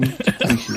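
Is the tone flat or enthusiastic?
flat. It is said flatly, without enthusiasm.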